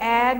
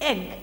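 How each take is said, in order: First: The vowel sound is long. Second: The vowel sound is short. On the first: The speaker calls it wrong. "बच्चा कभी एग नहीं पढ़ेगा" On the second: The speaker calls it right. "छोटी आवाज"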